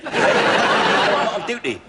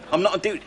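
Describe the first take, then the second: First: Slow, laughing through the words; can't hold the laugh in while lying. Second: Said in the usual way. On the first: Real, not acted. Burglar laughs while posing as doctor.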